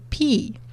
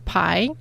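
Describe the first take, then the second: First: It is said like the letter P. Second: It is said the usual English way. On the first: The speaker calls it wrong. "in my country, we pronounce it like number p" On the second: The speaker calls it right. "All people around the world knows this one"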